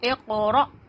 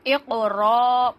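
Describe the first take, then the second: First: The middle sound is cut with a sharp catch. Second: The middle sound runs on smoothly without a catch. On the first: The speaker calls it right. "इसे कहते हैं झटका करना" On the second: The speaker calls it wrong. "ये गलत हो जाएगा"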